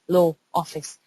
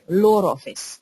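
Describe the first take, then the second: First: No R sound links law and office. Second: An R sound links law and office.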